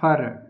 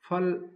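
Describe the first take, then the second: First: The word ends with an r sound. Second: The word ends with an l sound. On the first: This is the Eastern Hindi form. "इसमें हो जाएगा फर, माने ल की जगह र आएगा" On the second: This is the Western Hindi form. "एक शब्द है फल"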